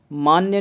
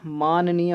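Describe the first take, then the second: First: मान्य cut to maan-ya; wrong shortened form. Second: माननीय said as maan-nee-ya; correct full form. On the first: Teacher showing the error, मान्य as short maan-ya. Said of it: "मान्य नहीं होता". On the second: Teacher giving the correct word, माननीय in full. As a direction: sound the long nee in माननीय. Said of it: "माननीय होता है". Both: Shown as a demonstration.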